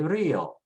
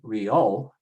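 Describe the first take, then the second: First: The stress is on the first syllable. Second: The stress is on the second syllable. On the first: The speaker calls it right. "we say Rio" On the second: The speaker calls it wrong. "We wouldn't say Rio"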